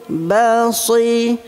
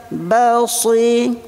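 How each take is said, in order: Both takes have the same delivery.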